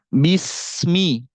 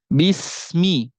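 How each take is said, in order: Both takes have the same delivery.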